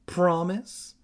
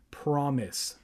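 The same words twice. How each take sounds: First: Promise? with a pushing rise; demanding question. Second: Calm repeat. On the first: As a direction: press her for an answer. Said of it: "Evan demanded". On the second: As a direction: settle it with a flat vow. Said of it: "she repeated". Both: A narrator's reading.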